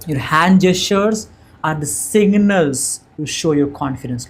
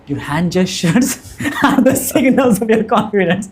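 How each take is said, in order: First: The delivery sounds plain and less confident. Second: The delivery sounds lively and confident. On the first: The speaker calls it wrong. "without hand gesture" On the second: The speaker calls it right. "how confident I'm sounding right now"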